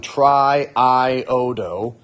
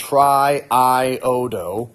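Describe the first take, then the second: First: The two vowel sounds are said as separate syllables. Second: The same.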